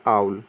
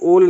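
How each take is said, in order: First: The vowel sounds like 'ow'. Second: The vowel sounds like 'oh'. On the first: The speaker calls it right. "Rule number nine यहाँ पे हो जाएगा apply" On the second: The speaker calls it wrong. "इसको ओल नहीं बोलेंगे"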